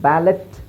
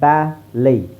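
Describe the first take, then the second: First: The word ends with a t sound. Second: The word ends without any t sound. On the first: The speaker calls it wrong. "ಬ್ಯಾಲೆಟ್ ಅಂತ ಹೇಳಲ್ಲ" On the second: The speaker calls it right. "ಬ್ಯಾಲೈ ಅಂತ ಹೇಳ್ತೀವಿ"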